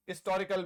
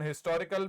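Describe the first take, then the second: First: हिस्टोरिकल said istorikal, h dropped; हिस्टोरिकल with no h sound; historical without h. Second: हिस्टोरिकल with a clear h, his-to-ri-kal; हिस्टोरिकल with the h sounded; historical with h. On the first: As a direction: say हिस्टोरिकल with a silent h. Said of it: "और इसका उच्चारण". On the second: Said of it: "उसी तरीके से हिस्टोरिकल है". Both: Shown as a demonstration.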